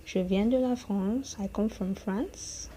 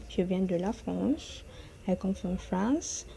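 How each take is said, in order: Both takes have the same delivery.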